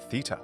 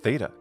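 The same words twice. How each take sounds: First: It is said with a British pronunciation. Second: It is said with an American pronunciation. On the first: "in British English" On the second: "in American English"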